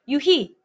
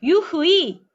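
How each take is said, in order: First: The last vowel is said as a single plain vowel. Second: The last vowel is said as a gliding diphthong. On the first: The speaker calls it right. "발음이 희만 난다는 거죠" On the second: The speaker calls it wrong. "유흐이 이렇게 하지 않아. 이중모음 안 해요"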